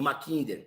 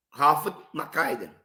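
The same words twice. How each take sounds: First: "Mackinder" with a short i, lower and softer; alternative pronunciation. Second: "Mackinder" tried with an English-style long i; first pronunciation attempt. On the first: Lecturer unsure of the geographer's name, softer alternative pronunciation. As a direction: offer "Mackinder" quietly as "ma-KIN-der". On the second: Lecturer unsure of the geographer's name, first pronunciation attempt. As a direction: say "Mackinder" as "ma-KAI-der". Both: Shown as a demonstration. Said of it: "não sei a pronúncia correta".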